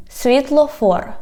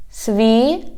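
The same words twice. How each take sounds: First: Said in the usual way. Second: Syllable by syllable. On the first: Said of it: "I read the whole word". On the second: Shown as a demonstration. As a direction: split "Світлофор" with long vowels and pauses. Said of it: "divide it into syllables".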